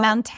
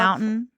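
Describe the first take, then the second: First: The middle T sound is clearly pronounced. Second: The middle T sound is dropped. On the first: This is how it is spelled, not how locals say it. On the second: This is the local California way of saying it. "Where we say"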